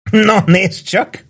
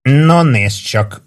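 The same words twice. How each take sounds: First: High, slow, tipsy teasing; playful high-pitched drunk; drunken chuckling. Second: Very slow, higher, resonant drawl; drawn-out mock-echoing remark; hollow ringing voice. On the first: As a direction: draw it out in drunken amusement. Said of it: "kuncogott részegen Warden". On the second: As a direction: stretch it out with a hollow ring. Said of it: "mondta Warden kongó hangon". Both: A narrator's reading.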